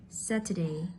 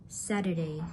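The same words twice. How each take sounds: No difference in how they are said.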